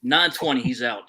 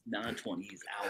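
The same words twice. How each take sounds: First: Said in the usual way. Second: Much softer repeat, like an aside; quiet echo. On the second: Shown as a demonstration. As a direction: say it again under your breath. Repeats the prediction softly.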